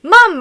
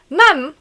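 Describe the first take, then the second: First: High, loud call of MUM. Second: MUM called in a put-on British accent; hammed-up British accent, raised on MUM. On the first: A narrator's reading. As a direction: shout MUM to another room, then narrate. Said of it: "I call out". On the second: Shown as a demonstration. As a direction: call out like a British kid. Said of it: "Let me do a really good British accent".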